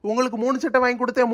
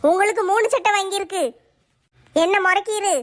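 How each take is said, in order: First: Fast, sing-song mock of the wife's line; mocking his wife. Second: Wife throwing the three shirts at him; sulky wife counting gifts; wife's voice, lower. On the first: Husband mocking wife's complaint, fast and teasing. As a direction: parrot her words back, teasing. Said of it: "கணக்கு சொல்லிக்கிட்டு அலையுதியோ". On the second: Acted. Wife reminding husband of his three shirts, nagging. Wife repeats her point.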